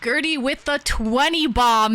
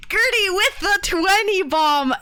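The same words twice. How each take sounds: First: Said in the usual way. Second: Excited shout-out. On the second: Real, not acted. Streamer hypes a donor's twenty bomb, excited high shout. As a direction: cheer her name out like an announcer.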